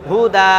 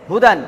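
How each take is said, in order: First: হুদা louder, ending on long open aa, no n; pausal form. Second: হুদান closed on a final n; full written ending. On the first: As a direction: stop on হুদা with the last vowel stretched. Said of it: "যদি আমি এখানে থামি". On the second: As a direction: say হুদান with the n sounded. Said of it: "দাল দু জাবার দান". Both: Shown as a demonstration.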